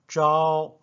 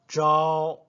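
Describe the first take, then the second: The two takes are said the same way.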